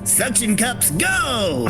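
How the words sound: It is said in a put-on character voice. The speaker calls it right.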